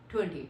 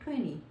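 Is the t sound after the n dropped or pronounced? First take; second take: pronounced; dropped. First: The t after the n is clearly pronounced. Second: The t after the n is dropped. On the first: The speaker calls it wrong. "टी उसमें हम लोग करते हैं pronounce" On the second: The speaker calls it right. "उसमें आपने टी को pronounce नहीं करना"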